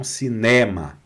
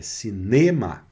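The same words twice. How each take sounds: First: Cinema said Portuguese-style, stress on ne; the cinema to avoid, nasal Portuguese sound; wrong pronunciation. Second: Cinema with final-syllable stress, oral vowels; the correct French cinema; French pronunciation. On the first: Teacher showing students the mistaken cinema, mild. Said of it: "E não cinema". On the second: Teacher giving students the right cinema, calm. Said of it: "é cinema". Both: Shown as a demonstration.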